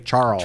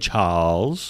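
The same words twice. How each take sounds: First: The name is said in a foreign accent. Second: The name is said in a British accent. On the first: The speaker steps out of his own accent. The speaker calls it wrong. "speaking in his British accent and suddenly say Charles" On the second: The speaker stays in his natural accent. The speaker calls it right. "He can say Charles"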